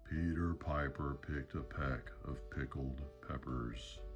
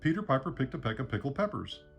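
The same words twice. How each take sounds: First: It is said at a very slow pace. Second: It is said at a fast pace.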